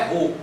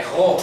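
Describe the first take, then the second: First: "ro" with a closed o; wrong closed vowel. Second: "ro" with an open o, like "ró"; corrected open-o "ro"; open vowel. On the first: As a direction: say "ro" with the o rounded and closed. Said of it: "Não é ro". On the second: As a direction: say "ro" with a wide-open o. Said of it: "É com som aberto". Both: Shown as a demonstration.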